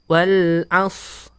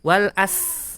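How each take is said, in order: First: The s is thick, with rounded lips. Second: The s is thin, with spread lips. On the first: The speaker calls it right. "shad bibirnya itu dimanyunkan... sehingga suaranya menebal" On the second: The speaker calls it wrong. "Orang membaca shad itu seperti sin"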